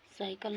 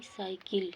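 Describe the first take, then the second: First: "साइकिल" ending in kal; wrong uh vowel ending "साइकिल"; mispronounced cycle. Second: "साइकिल" ending in kil; correct pronunciation. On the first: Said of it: "साइकिल नहीं". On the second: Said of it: "एकर उच्चारण साइकिल". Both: Shown as a demonstration.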